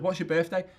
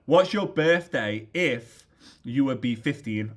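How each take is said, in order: First: Said in the usual way. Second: Slow, deliberate "What's your birthday", leaning on "if"; pointed question. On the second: Retold or imitated. Dad coaching his son to lie about his age, slow and pointed. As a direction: draw out "if" as a heavy hint.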